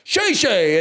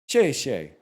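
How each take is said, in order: First: It is said loudly, with confidence. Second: It is said quietly, without confidence. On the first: The speaker calls it right. "she'd say more confidence" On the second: The speaker calls it wrong. "she was like, "No, boo Dway,""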